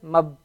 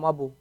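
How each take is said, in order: First: No vowel follows the b. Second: A u vowel follows the b. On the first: The speaker calls it right. "Just mab" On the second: The speaker calls it wrong. "You can't say"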